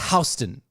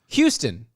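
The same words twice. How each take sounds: First: The first syllable sounds like 'house'. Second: The first syllable sounds like 'hue'.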